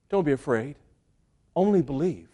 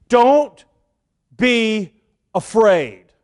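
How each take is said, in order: First: Much softer and lower, tender and calm; soft reassurance. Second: Strong stress on Don't, then a falling afraid; firm command. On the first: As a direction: speak it gently as comfort to a frightened father. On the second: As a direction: press hard on Don't and let afraid fall. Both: Acted. Jesus comforts a terrified father.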